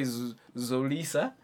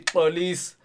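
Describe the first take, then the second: First: The name begins with a z sound. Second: The name begins with a click sound. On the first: The speaker calls it wrong. "I don't want to hear you say Zolisa. Nah, we don't have a Zo" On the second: The speaker calls it right. "if I can say Gechan, you guys can also say Xolis"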